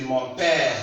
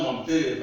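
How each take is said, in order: First: "père" with a long open "eh" vowel; open è pronunciation. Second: "père" wrongly said with a tight "ay" vowel, like "pay"; closed é mispronunciation. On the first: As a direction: say "mon père" with the vowel open as in "air", drawn out. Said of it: "but it is mon père". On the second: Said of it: "This one is not mon père". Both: Shown as a demonstration.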